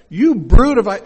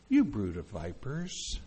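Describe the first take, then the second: First: Sudden loud, higher-pitched accusation; booming prophetic rebuke, cut short; fiery preacher's shout. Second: Soft, unhurried, low-pitched address; gently understated scolding, no bite; nice, mild reading. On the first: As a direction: hurl it at the crowd. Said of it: "that's not the way he said it". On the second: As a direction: say it mildly, as if paying a compliment. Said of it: "you think that's why he said it". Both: Shown as a demonstration.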